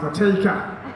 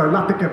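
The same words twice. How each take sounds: First: The name has the Australian syllable stress. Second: The name has the Indian syllable stress. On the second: "Indians and Australians pronounce names differently"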